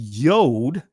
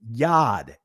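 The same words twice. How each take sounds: First: The vowel is a rounded oh sound. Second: The vowel is an open ah sound. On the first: This is a later, changed form of the vowel. The speaker calls it wrong. "Notice it's not saying yod" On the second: This keeps the original vowel. The speaker calls it right. "That's the original sound"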